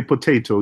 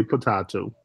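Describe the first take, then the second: First: Said in the usual way. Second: "potato" said as po-TAH-to; "potato" rhyming with a British "tomato"; mock British pronunciation. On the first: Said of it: "We say potato". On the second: Shown as a demonstration. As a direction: say "potato" with a long ah in the middle. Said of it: "you say potato".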